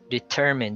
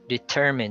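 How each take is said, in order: First: The stress is on the second syllable. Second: The same.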